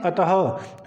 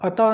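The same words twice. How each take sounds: First: The word ends with an audible h sound. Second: The word ends without an h sound. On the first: The speaker calls it right. "यहाँ पर हमारे पास जो ह की ध्वनि है वो निकलती है।" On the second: The speaker calls it wrong. "अतः नहीं"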